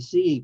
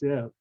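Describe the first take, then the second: First: The vowel is long, like in 'believe'. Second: The vowel is short, like in 'sit'. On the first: The speaker calls it wrong. "It should be C, like believe, but it's not" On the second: The speaker calls it right. "It's sieve, like S I V"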